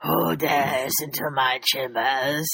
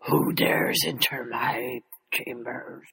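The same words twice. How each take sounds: First: Low slow villain voice, repeated on request; dragon voice. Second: Low, slow, whispered menace; dragon voice. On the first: Pretend. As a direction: rumble it like a dragon in its lair. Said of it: "can you do that again?". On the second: Acted. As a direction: breathe it out like a looming dragon. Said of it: "That's awesome".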